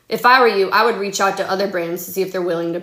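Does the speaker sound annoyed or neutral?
annoyed. It is read in an annoyed, fed-up tone. The writer seems tired of the conversation. "how it could like sound. Like, I'm over it"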